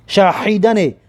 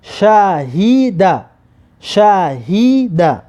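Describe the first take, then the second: First: شاهید with the ه rasped in the throat like ح; شاهید said wrongly with throat-made h; wrong throaty h. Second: شاهیده slowly, with a plain breath h, no throat; drawn-out model شاهیده with glottal h; correct light h. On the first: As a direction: show the mistake in شاهید, a pharyngeal h in the middle. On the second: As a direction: stretch the syllables of شاهیده, keeping ه light. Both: Shown as a demonstration. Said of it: "به حلق نگویید".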